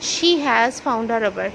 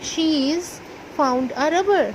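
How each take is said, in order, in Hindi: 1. 'She has' दो पूरे शब्दों की तरह बोला जाता है। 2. 'She has' एक ही शब्दांश में संकुचित होता है।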